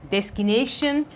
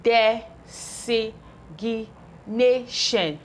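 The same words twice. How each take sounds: First: Said in the usual way. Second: "designation" stretched out very slowly, syllable by syllable; very slow blending. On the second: Shown as a demonstration. Teacher to pupils, stretching the word out very slowly. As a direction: draw out every syllable of "designation". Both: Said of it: "We have numeric".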